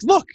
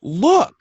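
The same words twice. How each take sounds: First: Mildly imitated husband pointing it out; short "Look", as if the proof is right there; husband's confident look. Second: High, loud "Look" in mock exasperation; exasperated eye-roll. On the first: Husband proving his point to his wife, confident. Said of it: "I'm like". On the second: Wife showing husband his mistake, exasperated. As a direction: imitate a wife barely tolerating her husband. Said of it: "almost rolling her eyes".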